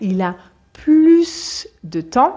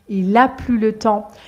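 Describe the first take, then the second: First: The final S of plus is pronounced. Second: The final S of plus is silent. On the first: He has more time. "on va prononcer le S quand c'est positif" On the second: He no longer has any time. "on ne prononce pas le S quand c'est une phrase négative"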